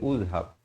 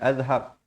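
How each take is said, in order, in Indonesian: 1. Kata ini dimulai dengan vokal u. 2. Kata ini dimulai dengan vokal a. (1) "jangan baca uzhab" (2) "Apatah lagi azhab"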